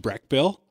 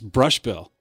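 First: The first syllable sounds like breck. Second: The first syllable sounds like brush. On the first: The speaker calls it wrong. "We've been butchering his name all along" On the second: The speaker calls it right. "It's Brush Bill"

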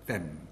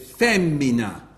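First: Only the stressed first syllable is left. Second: All three syllables are pronounced in full. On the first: The unstressed part has worn away over time. "the unstressed bit of a word tends to get garbled until it's lost" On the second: This is the older form of the word. "they said femmina"

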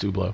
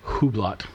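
First: The name is pronounced unlike its spelling. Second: The name is pronounced the way it is spelled. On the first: The speaker calls it right. "but it's Hublot" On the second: The speaker calls it wrong. "which is written like Hublot"

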